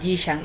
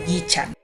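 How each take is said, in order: First: The name is said with a Spanish-style pronunciation. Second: The name is said with a Chinese pronunciation.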